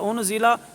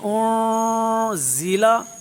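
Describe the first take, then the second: First: The n is pronounced as a clear n. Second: The n is hidden in a nasal sound. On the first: The speaker calls it wrong. "उसने गलती की, क्योंकि इख्फा अदा नहीं किया" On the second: The speaker calls it right. "यहाँ पढ़ेंगे ओ ज़ीला, ओ ऐसे करेंगे"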